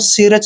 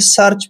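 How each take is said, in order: First: The first vowel is a long 'ee' sound. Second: The first vowel is an 'er' sound. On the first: The speaker calls it wrong. "इसको सीरच नहीं पढ़ना है" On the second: The speaker calls it right. "इसको हमने सर्च पढ़ना है"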